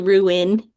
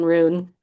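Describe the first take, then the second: First: It is said as two syllables, roo-in. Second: It is said as one syllable, like roon. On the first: The speaker calls it right. "it's actually ruin" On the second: The speaker calls it wrong. "R O O N, rune"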